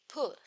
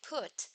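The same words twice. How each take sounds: First: The final t is made with a glottal stop. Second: The final t is a plain t. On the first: "some uh, native speakers would say put" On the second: "Instead of put"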